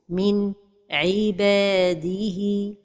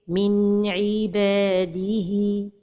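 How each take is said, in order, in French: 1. Il y a une pause après le son n. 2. Le son n s'enchaîne doucement avec le son suivant. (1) "La troisième erreur, c'est la pause" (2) "la prononciation correcte"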